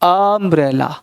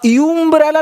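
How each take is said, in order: First: The word begins with an 'uh' sound. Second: The word begins with a 'yoo' sound. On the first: The speaker calls it right. "आ अम्ब्रेला बोलते हैं ना" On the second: The speaker calls it wrong. "अब यूम्ब्रेला नहीं बोलते"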